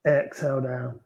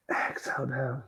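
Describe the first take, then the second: First: Said in the usual way. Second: Whispered exhale cue, much softer; yoga teacher whispering the exhale to the class. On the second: Real, not acted. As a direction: breathe the words out on a whisper. Breathing cue in yoga flow.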